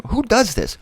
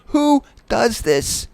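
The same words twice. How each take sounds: First: Who does this, high and amazed; incredulous. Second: "Who does this?" stretched very slowly and high; slow incredulous. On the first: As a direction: ask it in amazement. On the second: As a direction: drag every word out in disbelief. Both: Shown as a demonstration.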